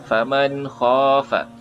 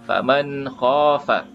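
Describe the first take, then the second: Both takes have the same delivery.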